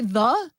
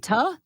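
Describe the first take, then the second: First: The word begins with a soft 'th' sound. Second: The word begins with a hard 't' sound. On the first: "you don't say the" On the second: "you say ta"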